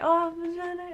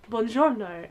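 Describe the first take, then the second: First: Higher, soft echoed Italian greeting; customers' reply. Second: Low, understated Italian greeting; Italian waiter greeting. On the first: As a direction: imitate diners politely greeting back. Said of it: "And we're all like". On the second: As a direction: softly imitate a waiter's buongiorno. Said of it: "Waiter comes over and he's like". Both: Retold or imitated.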